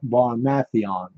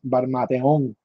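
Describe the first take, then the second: First: The stress falls on the syllable with A. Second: The stress falls on the syllable with O. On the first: "with like an accent on the A" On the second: "it's an accent on the O, right?"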